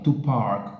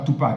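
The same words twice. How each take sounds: First: The second word sounds like 'park'. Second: The second word sounds like 'pac'. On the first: The speaker calls it right. "to park, park, comme le parking" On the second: The speaker calls it wrong. "pas to park, hein, comme le nom de [name], non"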